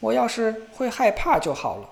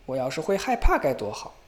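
First: 音调高、声音大地抱怨; 不耐烦地念叨. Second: 低声反复念叨; 嘟嘟囔囔地重复. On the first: (小伙子不停地高声唠叨) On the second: (小伙子平淡地又念叨一遍) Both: A narrator's reading. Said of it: "不停地唠叨".

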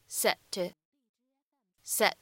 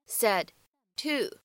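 First: "said to" with the d held, unreleased; lost plosion. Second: Said in the usual way. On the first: Shown as a demonstration. Teacher showing learners lost plosion in "said to". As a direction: run "said to" together, stopping the d silently. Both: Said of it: "会有一个失去爆破的现象".

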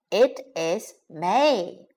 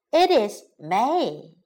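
First: Slow "It is May" with gaps between words; slow teaching model of "It is May". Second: Said in the usual way. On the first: Shown as a demonstration. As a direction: separate each word of "It is May" for learners. Teacher models phrase word by word.

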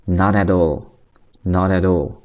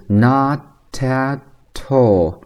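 First: "not at all" as no-da-dall; slow, smoothly joined "not at all"; natural flapped linking. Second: "not at all" as slow no-ta-tall; syllable-by-syllable linking demo of "not at all"; linked with true t. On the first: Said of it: "所以它自然连读状态下的一个读法". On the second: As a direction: carry each clear t onto the next word in "not at all". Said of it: "都可以连在一起". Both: Shown as a demonstration.

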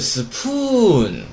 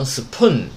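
First: "spoon" as "supuuun", the vowel stretched out; slow, exaggerated long vowel in "spoon". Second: "spoon" cut short as "supun"; a short, quick vowel in "spoon"; wrong short vowel. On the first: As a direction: draw out the oo of "spoon" very slowly before the n. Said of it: "它先有长音啊". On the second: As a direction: say "spoon" with no long vowel, straight onto the n. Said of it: "不要发成spoon". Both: Shown as a demonstration.

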